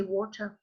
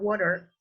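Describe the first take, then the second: First: Water ending in an open uh; water said the British non-rhotic way; British water, no final R. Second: Water with a clear er ending; water said the American rhotic way; American water, final R sounded. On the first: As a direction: drop the R at the end of water. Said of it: "in British English you say". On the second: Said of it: "In American English you say". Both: Shown as a demonstration.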